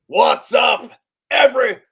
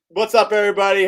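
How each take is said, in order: First: It is said with very high energy. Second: It is said with calmer, lower energy.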